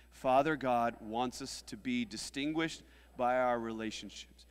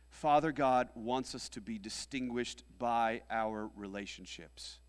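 No difference in how they are said.

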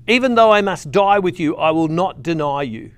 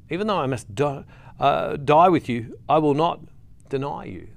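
First: Emphatic vow. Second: Halting vow, broken by pauses; deliberate repeat. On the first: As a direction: proclaim it boldly as Peter's promise. Peter's vow, first emphatic take. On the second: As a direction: repeat the promise piece by piece, letting it sink in. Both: Acted.

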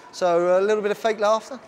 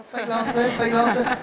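First: Said in the usual way. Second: Laughing through the words; fake laughter. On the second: Shown as a demonstration. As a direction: fake laugh while saying it. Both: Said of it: "you're gonna do fake laughter".

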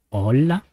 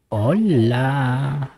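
First: Said in the usual way. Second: Squeaky mouse voice; helium voice. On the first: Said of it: "A ver". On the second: Shown as a demonstration. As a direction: chipmunk filter voice. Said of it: "voz de ratita".

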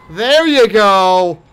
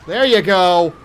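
First: Slow, satisfied. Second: Said in the usual way. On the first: Real, not acted. Killing the monster.

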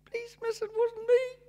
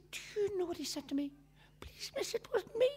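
First: Much higher, whiny mimic of a boy; mock the boy's excuse in a high little voice; teacher mimicking the pupil's whine; mocking child voice. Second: Hushed scandalised whisper; a touch of a whispered mock boy. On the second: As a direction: whisper it as if shameful. Teacher tells the headmaster.

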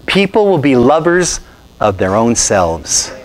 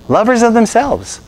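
First: Slow, measured scripture reading; solemn reading of the verse. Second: Lovers of themselves pitched much higher and slow, leaning on of; preacher repeating the phrase for emphasis; emphatic repeat. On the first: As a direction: read the verse deliberately, slowly. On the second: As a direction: hammer home Lovers of themselves, high and slow. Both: Shown as a demonstration. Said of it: "I'm quoting scripture".

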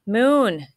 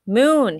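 First: Loud, higher shout of a name; yelling a friend's name, louder and higher; calling out. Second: Louder, higher shout of the name; yelling the name once more, higher and louder; calling out again. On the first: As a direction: call him back urgently. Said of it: "Kit yelled". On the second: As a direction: call him back more urgently. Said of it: "he yelled again". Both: A narrator's reading.

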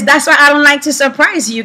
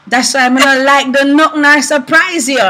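First: Said in the usual way. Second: Husband's line in Jamaican patois; Jamaican accent. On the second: Retold or imitated. Husband annoyed his car surprise failed, Jamaican accent. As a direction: quote him in a light Jamaican accent. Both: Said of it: "In, in Jamaican, he says".

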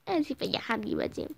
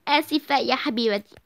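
First: Softer, grudging sorry; reluctant mumble. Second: Said in the usual way. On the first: Acted. Daughter forced to apologise, mumbling. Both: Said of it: "قولي آسفة".

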